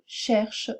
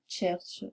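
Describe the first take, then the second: First: The word begins with a plain sh sound. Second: The word begins with a tch sound. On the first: The speaker calls it right. "Quand vous dites par exemple" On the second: The speaker calls it wrong. "vous avez tendance à ajouter un T"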